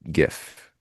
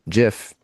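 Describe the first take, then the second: First: It begins with a hard g sound. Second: It begins with a soft j sound. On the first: "like giving a gift" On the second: "creator says GIF"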